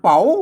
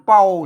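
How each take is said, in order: First: The syllable is said with a rising tone. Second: The syllable is said with a low tone. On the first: "เสียงจัตุวาย" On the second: "เสียงเอก"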